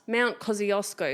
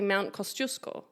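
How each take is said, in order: First: The name is said the common everyday way. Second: The name is said the original way. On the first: This is how most people say it. The speaker calls it wrong. "Everyone says Mount Kosciuszko. It's not Mount Kosciuszko" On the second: This is the true pronunciation. The speaker calls it right. "It's actually Mount Kosciuszko"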